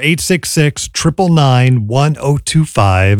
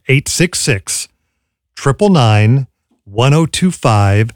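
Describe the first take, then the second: First: The number is said at normal speed. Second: The number is said more slowly.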